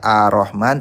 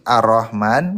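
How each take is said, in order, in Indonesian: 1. R-nya tunggal, tanpa R yang ditahan. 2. R-nya dobel dan ditahan lebih lama. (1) "dia tidak baca Ar-Rahman" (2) "tapi Ar-Rahman"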